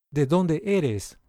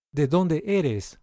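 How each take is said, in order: Both takes have the same delivery.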